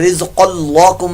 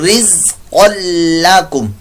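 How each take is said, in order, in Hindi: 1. L की आवाज़ भारी और भरी हुई है। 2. L की आवाज़ हल्की और पतली है। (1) "नहीं कर देना, ये गलत हो जाएगा आपका" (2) "क़ाफ़ पुर मोटा होगा, लाम पुर"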